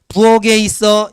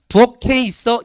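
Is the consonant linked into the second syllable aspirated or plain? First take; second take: plain; aspirated. First: The final consonant is not linked as aspirated k. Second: The final consonant is linked as aspirated k. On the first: The speaker calls it wrong. "일 번" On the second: The speaker calls it right. "이 번이에요. 부엌해가 맞습니다"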